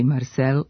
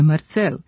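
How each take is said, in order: First: The name begins with an s sound. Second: The name begins with a ts sound. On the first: The speaker calls it right. "ispravno pisati i govoriti" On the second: The speaker calls it wrong. "a ne"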